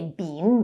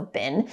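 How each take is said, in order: First: The word is said in its full, unreduced form. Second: The word is said in a reduced, weaker form. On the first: "we don't say been" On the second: "because it's reduced, so been"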